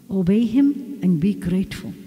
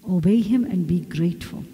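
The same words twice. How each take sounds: The two takes are said the same way.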